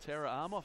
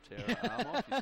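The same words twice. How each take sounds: First: The name is said in his ordinary accent. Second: The name is said in a put-on accent.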